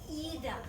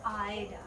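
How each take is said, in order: First: The first vowel is an ee sound. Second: The first vowel is an eye sound. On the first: The speaker calls it right. "I is always E" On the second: The speaker calls it wrong. "it's never Ida"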